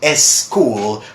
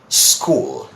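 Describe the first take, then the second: First: An extra 'e' vowel comes before the word. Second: The word starts directly with the s sound. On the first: The speaker calls it wrong. "So they people say es school" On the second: The speaker calls it right. "where they should be saying school"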